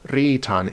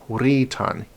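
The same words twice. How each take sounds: First: The word starts with a plain r sound. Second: The word starts with a w sound before r. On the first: The speaker calls it wrong. "It was not pronounced ritan" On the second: The speaker calls it right. "actually pronounced with a W in it"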